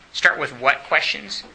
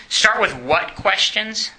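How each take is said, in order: First: Said in the usual way. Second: Drawn-out question, rising at the end; teacher drilling the class with a slow, rising question; slow emphatic question. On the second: Shown as a demonstration. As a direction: stretch out Start with what questions? slowly, with a rise on with.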